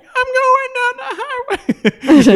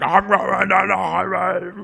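First: Very high, slow squeaky singing; slow falsetto pig voice through laughter; high-pitched voice. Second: Slow, growled-out monster line; lightly voiced monster; a hint of cartoon monster. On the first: Retold or imitated. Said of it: "in a high-pitched voice". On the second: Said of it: "they're like monsters".

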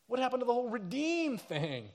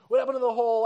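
First: Higher, puzzled and let down; bewildered question. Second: Much louder, higher, demanding answers; the same question thrown out in anger; outraged repeat. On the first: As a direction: ask as if promises were broken. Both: Retold or imitated. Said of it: "People are like".

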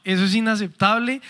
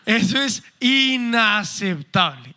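First: Said in the usual way. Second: "inaceptable" stretched out slowly; emphatic. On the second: Real, not acted. Speaker condemning physical or verbal aggression, slow stress on "inaceptable". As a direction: weigh each syllable of "inaceptable". Emphatic verdict on abuse, then repeated.

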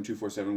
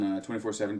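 First: "two four seven" said as two, four, seven. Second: "twenty-four seven" said as twenty four seven. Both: Shown as a demonstration. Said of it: "whatever the hell it's called".

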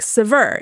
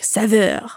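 First: Saveur as American "suh-VUR"; American accent. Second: Saveur in a rough French accent; attempted French accent. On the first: Retold or imitated. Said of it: "say with an American accent". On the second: Shown as a demonstration. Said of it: "with a proper French accent".

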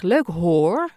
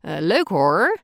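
First: "Leuk hoor." with a pure, rounded O in "hoor" so the R fades; the good example of "Leuk hoor.", a crisp O in "hoor" that hides the R; clean O. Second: "Leuk hoor." with a lazy open O and a heavy Gooise R in "hoor"; the bad example of "Leuk hoor.", the O of "hoor" sloppy and the R throaty; wrong Gooise R. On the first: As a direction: shape the O of "hoor" clearly and keep the R light. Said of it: "Maar dat je zegt". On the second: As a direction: say "hoor" with the O slack so the Gooise R sticks out. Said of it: "Dat je niet zegt". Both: Shown as a demonstration.

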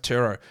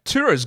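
First: Turo said as "TERR-oh"; disputed pronunciation. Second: Said in the usual way. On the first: Shown as a demonstration. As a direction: say Turo to rhyme with "hero" spoken as "herro". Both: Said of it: "It cannot be pronounced Turo".

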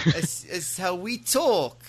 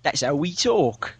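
First: Slow, high mimicked British accent; bad British accent. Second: Slow, higher British accent; exaggerated British accent. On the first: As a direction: mimic a Brit badly, stretching it out. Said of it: "No, that's bad". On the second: Shown as a demonstration. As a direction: play up your British accent, drawn out. Briton mocks the imitation back.

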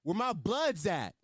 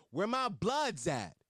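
First: Slow, louder hype call; slow mock rally cry; mock crowd call. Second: Slow, drawn-out crowd call; mock yell. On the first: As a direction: drag it out like calling to the crowd. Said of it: "he said". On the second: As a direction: stretch it like a hype man. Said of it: "and yelled".

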